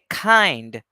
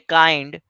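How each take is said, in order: First: The first k has a strong puff of air. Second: The first k has no puff of air. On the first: The speaker calls it right. "we need to aspirate" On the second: The speaker calls it wrong. "We won't say kind"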